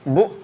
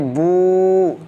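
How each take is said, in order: First: The vowel is cut off abruptly. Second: The vowel is drawn out long. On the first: "तो हमने झटका दिया" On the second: "तो हमने खींच दिया"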